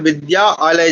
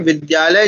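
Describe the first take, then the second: First: The parts are said separately with a break. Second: The sounds run together smoothly without any break. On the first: The speaker calls it wrong. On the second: The speaker calls it right.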